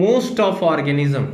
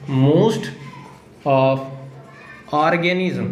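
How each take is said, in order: First: Said in the usual way. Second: "most", "of", "organism", long pause after each; slow dictation. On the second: Shown as a demonstration. Teacher dictating a DNA definition to students, word-by-word dictation.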